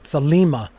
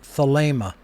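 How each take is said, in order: First: The second vowel is an ee sound. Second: The second vowel is a long ay sound. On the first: The speaker calls it wrong. "it is not an iota" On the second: The speaker calls it right. "It is a long A sound"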